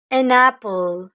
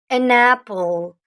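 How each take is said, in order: First: Said in the usual way. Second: An apple, spelled out slowly; slow teacher model of "An apple"; slow and clear. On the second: Shown as a demonstration. (lentement, en articulant "An apple") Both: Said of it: "On peut pas dire a apple".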